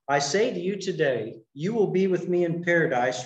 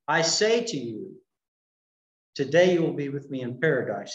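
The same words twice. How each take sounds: First: The pause comes right after 'today'. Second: The pause comes right before 'today'. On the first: The speaking happens today; paradise comes later. The speaker calls it right. "it might be possible to read the statement" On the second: Paradise is reached on that same day. The speaker calls it wrong. "rather than"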